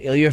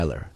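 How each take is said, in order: First: The name ends in a soft 'ah' sound. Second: The name ends in an 'er' sound. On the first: The speaker calls it wrong. "so I said his name wrong?" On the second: The speaker calls it right. "his name is pronounced Eiler"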